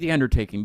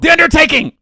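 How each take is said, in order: First: The name is said flatly without excitement. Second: The name is said with exclamation-like excitement. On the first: The speaker calls it wrong. "you can't just say The Undertaking" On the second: The speaker calls it right. "you have to say it like that because there, there's an exclamation point at the end"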